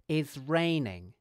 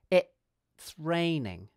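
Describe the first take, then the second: First: The first word ends in a z sound. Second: The first word has a gap then a ts sound. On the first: The speaker calls it wrong. "it's obvious when someone gets this wrong" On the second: The speaker calls it right. "focus on using a glottal stop between the vowel and the consonant cluster"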